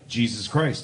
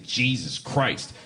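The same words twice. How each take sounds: First: It is said in a plain, neutral tone. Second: It is said with an annoyed, exasperated tone.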